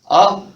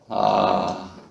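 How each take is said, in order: First: The vowel is pushed out loudly from the belly. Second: The vowel is said softly with breath let out. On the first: "배에 힘을 주고 아 내지르는 소리네요" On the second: "숨을 좀 내뱉고 어, 아를 하시면 됩니다"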